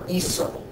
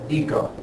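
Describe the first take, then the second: First: The middle consonant is an S sound. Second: The middle consonant is a K sound. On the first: The speaker calls it right. "We want to maintain that s pronunciation" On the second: The speaker calls it wrong. "this is actually pronounced eco"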